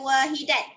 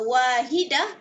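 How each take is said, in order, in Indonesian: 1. Kata ini berakhir dengan bunyi t. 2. Kata ini berakhir dengan bunyi h.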